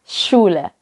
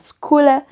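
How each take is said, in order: First: The word begins with an 'sh' sound. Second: The word begins with an 'sk' sound. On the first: The speaker calls it right. "melainkan Schule. Jadi kalau S C H ... seperti ... S Y" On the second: The speaker calls it wrong. "Kalau C H itu pakai K, jadi kita bacanya Schule. Tapi sebenarnya itu bukan Schule"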